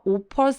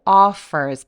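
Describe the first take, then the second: First: The first vowel is short with little jaw opening. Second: The first vowel is long with wide jaw opening. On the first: The speaker calls it wrong. "아니고" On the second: The speaker calls it right. "턱 엄청 길게 벌려서"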